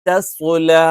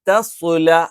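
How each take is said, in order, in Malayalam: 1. ആദ്യത്തേത് കനം കുറഞ്ഞതും രണ്ടാമത്തേത് കനമുള്ളതുമാണ്. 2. ആദ്യത്തേത് കനം കുറഞ്ഞതും രണ്ടാമത്തേത് കനമുള്ളതുമാണ്.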